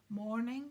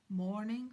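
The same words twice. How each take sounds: First: A cheerful, lightly raised good morning; bright greeting. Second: Said in the usual way. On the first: A narrator's reading. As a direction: greet the stranger brightly, with a small lift. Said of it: "said Mister Weasley brightly".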